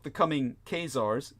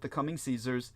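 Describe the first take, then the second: First: The name begins with a hard K sound. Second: The name begins with a soft S sound. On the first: The speaker calls it right. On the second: The speaker calls it wrong.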